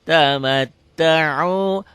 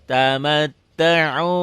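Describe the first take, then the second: No difference in how they are said.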